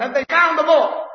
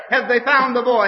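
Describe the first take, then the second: First: Much higher, loud, crying out. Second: Higher and louder urgent question; anxious asking. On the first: The towns crying out for the lost boy, high and loud. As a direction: call it out like the whole county asking. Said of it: "That was the cry". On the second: Townsfolk asking each other about the lost boy, anxious and loud. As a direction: ask it like a worried neighbour. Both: Retold or imitated.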